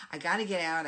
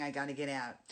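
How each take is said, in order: First: I gotta get out, blurted much louder; antsy outburst. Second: Said in the usual way. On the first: Retold or imitated. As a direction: push "gotta" out loud like you're bursting to leave. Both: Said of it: "getting very antsy".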